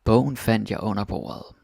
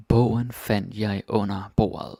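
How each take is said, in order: First: Said in the usual way. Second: "Bogen fandt jeg under bordet" repeated slowly, "Bogen" leaned on; slower repeat. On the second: Shown as a demonstration. Teacher repeating the example slowly for students, "Bogen" stressed. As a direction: say it again slowly for the learners, "Bogen" first and stressed. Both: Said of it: "Some more examples of that".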